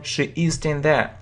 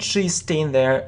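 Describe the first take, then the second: First: She is is said as two full words. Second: She is is contracted into one syllable. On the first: "or it can be full form" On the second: "It's a short form"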